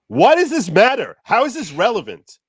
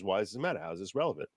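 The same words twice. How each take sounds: First: It sounds exasperated and confused. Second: It sounds flat and rude.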